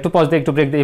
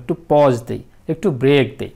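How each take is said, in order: First: The two halves run together without any pause. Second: There is a short pause between the two halves. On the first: This is not how people normally speak. The speaker calls it wrong. "এইভাবে তো বলতেছি না" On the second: This is the natural way of speaking. The speaker calls it right. "এই যে এটা natural"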